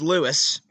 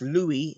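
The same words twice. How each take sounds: First: The name is pronounced the English way. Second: The name is pronounced the French way. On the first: "In English, it's Louis" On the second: "In French, it's Louis"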